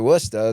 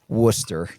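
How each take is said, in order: First: It is said in a Boston accent. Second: It is said in a neutral accent. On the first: The speaker calls it right. "I enjoyed the Boston accent" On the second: The speaker calls it wrong. "No, c- no, no"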